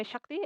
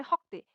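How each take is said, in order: First: शक्ति with a clear sh at the start; Hindi pronunciation. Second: हक्ति with an h in place of the sh and a rounded o; Assamese pronunciation. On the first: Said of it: "Hindi में". (हिंदी में शक्ति, श के साथ) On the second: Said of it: "Assamese में". (असमिया में हक्ति, ह की ध्वनि के साथ) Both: Shown as a demonstration.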